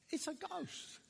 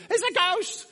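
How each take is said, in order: First: High, softened gasp of fright; terrified hushed cry. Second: High, loud cry of alarm; terrified cry. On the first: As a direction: say it small and high, scared. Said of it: "and they're terrified". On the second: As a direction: cry out like scared disciples seeing a ghost. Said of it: "the disciples are ultra scared". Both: Acted.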